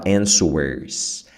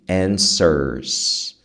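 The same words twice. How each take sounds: First: A W sound is heard after the N. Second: The N runs straight into the vowel. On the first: The speaker calls it wrong. "muita gente quer falar answers, answers, por causa do W" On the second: The speaker calls it right. "você sai do N e entra no E"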